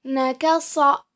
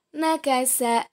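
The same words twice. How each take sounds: First: Nakasa ending in a heavy "so"; letter sad. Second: Nakasa ending in a light "sa"; letter sin. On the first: Teacher contrasts two letters for students, Nakasa with heavy "so". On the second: Teacher contrasts two letters for students, nakasa with light "sa". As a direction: say nakasa with thin S, open last vowel. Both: Shown as a demonstration. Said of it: "Perbandingan antara huruf so dan huruf sa".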